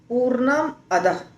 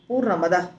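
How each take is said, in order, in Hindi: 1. दोनों शब्द अलग-अलग बोले जाते हैं। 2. दोनों शब्द जुड़कर एक साथ बोले जाते हैं। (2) "संधि किया तो हो गया पूर्णमदः"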